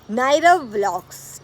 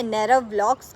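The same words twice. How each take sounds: First: नैरव vlogs said slowly and loudly, each syllable of नैरव spelled out clearly; slow loud correct naming of नैरव vlogs; clear name pronunciation. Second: Said in the usual way. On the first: Shown as a demonstration. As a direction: announce नैरव vlogs slowly and loudly so nobody says नायरव. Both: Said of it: "कई लोग नायरव बोलते हैं".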